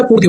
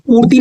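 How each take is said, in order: First: पूर्ति ending in a brief "ti"; short final i. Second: पूर्ति ending in a long, high "tee"; long-vowel mispronunciation. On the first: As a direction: clip the last vowel of पूर्ति short. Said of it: "छोटी की मात्रा रहेगी". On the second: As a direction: show the wrong long ee closing पूर्ति. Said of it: "पूर्ति नहीं होता". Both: Shown as a demonstration.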